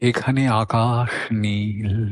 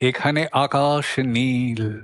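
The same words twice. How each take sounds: First: It is recited softly and gently. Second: It is recited with heavy, ringing resonance. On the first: The poem's gentle mood is kept. The speaker calls it right. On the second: The poem's mood is spoiled by excess. The speaker calls it wrong.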